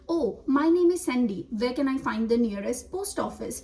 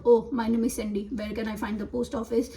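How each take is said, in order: First: Lively "Oh" and "Sandy", pitched up, then an easing question; model tone and rhythm. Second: Level "Oh, my name is Sandy", little lift; words without the tone. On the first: Teacher reading out the sentence to be repeated, expressive tone. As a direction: give "Oh, my name is Sandy" an expressive lift. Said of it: "tone और rhythm भी same ही बोल". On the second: Teacher showing a student's repeat of the sentence, toned-down delivery. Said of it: "same tone और rhythm में नहीं बोला". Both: Shown as a demonstration.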